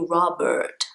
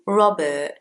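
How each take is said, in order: First: The middle R is a clear American R. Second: The R in the middle is very small. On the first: "If you're speaking with an American accent, not a problem at all. Then you would say" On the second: "So in British English, the R in the middle is very small"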